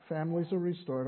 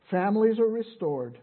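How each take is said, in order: First: Said in the usual way. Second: Loud preacher's declaration; emphatic proclamation. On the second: Real, not acted. Preacher declares the gospel's next promise to congregation, emphatic. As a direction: announce it firmly to the room, louder.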